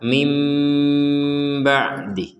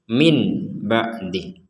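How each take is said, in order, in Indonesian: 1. Bunyi n sebelum b berubah menjadi m. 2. Bunyi n sebelum b diucapkan jelas sebagai n. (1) "Jadi cara bacanya itu adalah mim ba'di" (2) "Kalau dibaca jelas kan min ba'di"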